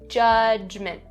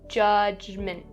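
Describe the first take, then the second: First: The middle consonant is a clear voiced J. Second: The same.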